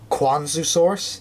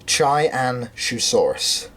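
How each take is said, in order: First: The name begins with a 'kw' sound. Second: The name begins with a 'ch' sound. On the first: The speaker calls it wrong. "I may have mispronounced it in the past, thinking it was" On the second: The speaker calls it right. "It's not, it is"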